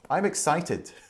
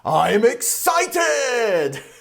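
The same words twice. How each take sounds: First: It is said with plain, normal intonation. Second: It is said with exaggerated, over-the-top intonation. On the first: "Just say it normally" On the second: "you don't have to go over the top with your intonation"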